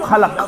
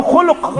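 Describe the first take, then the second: First: خلق said as "khalaq", with a vowels; second of two words, خلق with a sounds; pronunciation contrast. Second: خلق said as "khuluq", with u vowels; first of two words, خلق with u sounds; pronunciation contrast. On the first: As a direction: say خلق as "khalaq", open a in both syllables. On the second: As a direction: say خلق as "khuluq", rounded vowels in both syllables. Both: Shown as a demonstration. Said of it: "زٕ لفظ".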